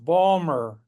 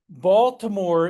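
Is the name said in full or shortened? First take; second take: shortened; full. First: The name is squeezed into two short syllables. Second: The name is said with all its syllables.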